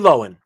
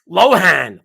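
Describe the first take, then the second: First: The H sound is left out. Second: The H sound is clearly pronounced. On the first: "it's like a silent H" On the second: "I'm hearing everybody Lohan"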